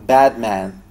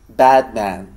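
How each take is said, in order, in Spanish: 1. La primera vocal se acerca al sonido inglés. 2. La primera vocal se acerca al sonido inglés.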